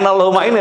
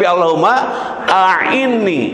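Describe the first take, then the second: First: The second word sounds like 'ini', opening sound dropped. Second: The second word keeps its opening sound, 'a'inni'. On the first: The speaker calls it wrong. "Bukan Allahumma ini" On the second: The speaker calls it right. "tapi Allahumma a'inni"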